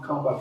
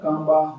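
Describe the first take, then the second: First: Second take of the Tibetan k contrast; second kangba. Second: Kangba said louder, with a plain k; first take of the Tibetan k contrast. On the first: Teacher demonstrates the second kangba. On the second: Teacher demonstrates the first kangba. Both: Shown as a demonstration. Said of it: "Can you hear the difference".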